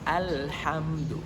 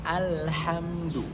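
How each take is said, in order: No difference in how they are said.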